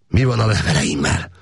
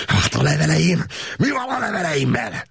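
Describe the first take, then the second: First: Said in the usual way. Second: Hateful shout. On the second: A narrator's reading. Prisoner screaming at officers about his letters, hateful shout. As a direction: hurl the question at them. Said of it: "sziszegő gyűlölettel kiáltotta".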